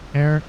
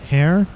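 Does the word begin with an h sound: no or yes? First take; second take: no; yes. First: The word starts with a vowel, no h sound. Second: The word starts with an audible h sound. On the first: The speaker calls it wrong. "I've been saying air the entire time" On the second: The speaker calls it right. "I think it's hair"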